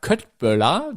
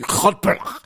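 First: It is pronounced the German way. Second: It is pronounced the Swedish way, throaty and retching. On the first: The speaker calls it wrong. "so wie wir das aussprechen" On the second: The speaker calls it right. "Der Schwede sagt irgendwie, Köttböller. ... als würde man die Dinger wieder hochwürgen"

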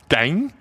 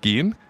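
First: It is said with a nasalized dialect vowel. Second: It is said in standard German, without nasalization.

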